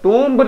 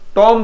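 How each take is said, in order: First: The word ends with an audible b sound. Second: The word ends on m with no b sound. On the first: The speaker calls it wrong. "टूम्ब नहीं बोलेंगे" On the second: The speaker calls it right. "टॉम बोलते हैं"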